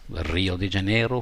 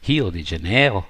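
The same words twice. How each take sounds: First: It is said with an English accent. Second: It is said with a Brazilian Portuguese accent. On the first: "it's Rio de Janeiro for the English people" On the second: "When the Portuguese say it, the Brazilians say it, it almost sounds like"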